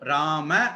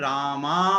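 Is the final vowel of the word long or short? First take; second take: short; long. First: The word ends in a short vowel. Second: The word ends in a long vowel. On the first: The speaker calls it right. "குறிலா தான் சொல்லணும். ராம அப்படின்னு தான் சொல்லணும்" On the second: The speaker calls it wrong. "ராமா அப்படின்னு சொல்லக்கூடாது"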